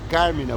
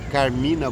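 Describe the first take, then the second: First: The stress is on the first syllable. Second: The stress is on the second syllable. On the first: "eu teria que colocar um acento agudo no primeiro A" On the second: "Eu prefiro falar Carmina Burana, porque trazendo para o português, o I é sílaba tônica"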